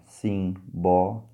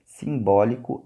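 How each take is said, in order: First: "simbólico" broken slowly into separate syllables. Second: Said in the usual way. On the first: Shown as a demonstration. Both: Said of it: "tem que saber separar sílabas".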